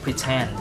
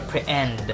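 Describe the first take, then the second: First: The T is pronounced with a puff of air. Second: The T is dropped entirely. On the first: The speaker calls it right. "aspirated yapon" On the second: The speaker calls it wrong. "Di mo siya pre-end"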